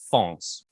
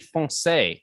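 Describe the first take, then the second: First: The word is said with one syllable. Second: The word is said with two syllables. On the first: The speaker calls it wrong. "not fonce" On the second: The speaker calls it right. "it's meant to be foncé"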